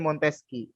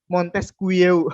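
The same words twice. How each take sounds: First: It is said with the French pronunciation. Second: Every letter is sounded as it is written. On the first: "Tapi dibacanya Montesquieu" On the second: "tulisannya Montesquieu"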